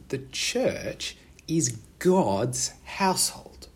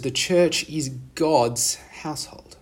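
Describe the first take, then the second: First: It is said slowly. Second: It is said at normal speed.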